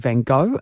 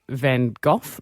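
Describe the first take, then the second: First: It is said the American English way. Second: It is said the British English way. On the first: "in the States, they say" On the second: "in Britain, we say"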